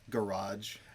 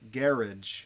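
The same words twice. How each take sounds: First: It is said the American way. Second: It is said the British way. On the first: "you might park it in your" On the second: "But in England, they sometimes call it a"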